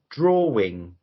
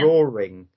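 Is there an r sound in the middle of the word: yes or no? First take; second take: no; yes. First: No r sound links the two syllables. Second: An r sound links the two syllables. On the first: "on the Macmillan Dictionary, it should be" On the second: "I use drawing as in a, a, a r sound"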